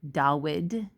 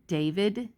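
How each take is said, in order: First: The middle consonant is a W sound. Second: The middle consonant is a V sound.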